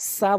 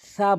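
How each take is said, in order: First: It begins with a hissing s sound. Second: It begins with a soft th sound. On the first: The speaker calls it wrong. "সা বলে যাবে না" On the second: The speaker calls it right. "সা বলতে হবে"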